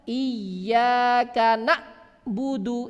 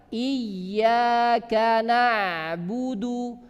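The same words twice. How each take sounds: First: The ain is cut off like a glottal stop. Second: The ain flows briefly without a break. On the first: The speaker calls it wrong. "Ini salah karena dia memotong ya suara ain" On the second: The speaker calls it right. "berjalan sedemikian rupa tetapi tidak terlalu banyak"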